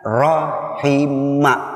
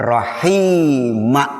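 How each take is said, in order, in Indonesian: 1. Vokal setelah 'rah' dibaca pendek. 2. Vokal setelah 'rah' dibaca panjang. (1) "fi'il madhinya rahima" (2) "bukan rahima"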